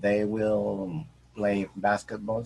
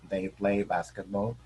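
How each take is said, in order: First: Will is said as a full separate word. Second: Will is contracted and joined onto they.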